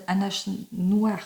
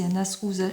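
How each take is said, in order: First: As said aʃ, with a slushy sh instead of s; lisped s in as, like ash. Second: Said in the usual way. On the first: Real, not acted. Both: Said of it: "oh décidément je vais zozoter".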